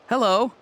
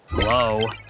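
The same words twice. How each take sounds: First: It sounds happy and cheerful. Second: It sounds frustrated and exasperated.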